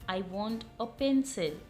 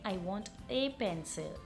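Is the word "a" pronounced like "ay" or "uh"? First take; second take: uh; ay. First: The word "a" is said as a short "uh". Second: The word "a" is said as a long "ay". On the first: "पहली ध्वनि जो है वो है अ की" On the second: "या फिर आप इसको ए भी कहते हैं"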